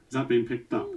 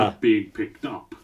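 First: It is said at a quieter volume. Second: It is said at a louder volume.

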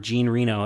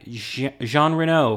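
First: The first name sounds like English 'Gene'. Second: The first name has a French-sounding pronunciation.

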